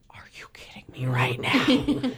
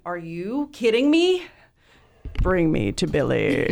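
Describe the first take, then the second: First: Whispered disbelief, low and breath-only; stunned whisper. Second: Hammed-up starstruck demand; thrilled disbelief. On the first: Retold or imitated. Teen fan offered a meeting with her idol, stunned whisper. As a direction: whisper it as if too overwhelmed to speak. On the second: Fan answers friend's concert invitation, hammed-up thrilled disbelief.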